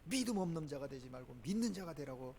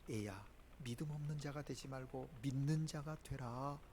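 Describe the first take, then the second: First: It is shouted in an angry tone. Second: It is said softly in a gentle tone.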